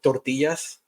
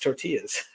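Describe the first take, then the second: First: It is pronounced with Spanish sounds. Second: It is pronounced with English sounds. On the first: Someone else is mixing Spanish into English speech. The speaker calls it wrong. "they'll speak English and they'll be like" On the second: The speaker keeps to one language. The speaker calls it right. "so I pronounce it like English"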